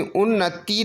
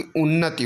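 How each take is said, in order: First: उन्नति with a stretched tee; long final ee. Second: उन्नति with a brief ti; short final i. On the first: Teacher showing the error, उन्नति with long tee. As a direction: hold the last vowel of उन्नति. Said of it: "नहीं बल्कि". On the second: Teacher correcting the spelling, उन्नति with short ti. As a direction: clip the last vowel of उन्नति. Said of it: "बल्कि उन्नति होना चाहिए". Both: Shown as a demonstration.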